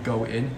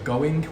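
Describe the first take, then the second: First: The final G sound is dropped. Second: The final G sound is pronounced.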